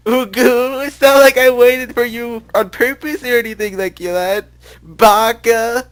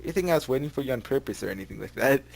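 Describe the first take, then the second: First: Put-on high, loud, slow tsundere girl; cute schoolgirl voice. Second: Said in the usual way. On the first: Shown as a demonstration. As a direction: squeal it like an anime schoolgirl. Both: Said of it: "that's my cute, screw, cool schoolgirl voice".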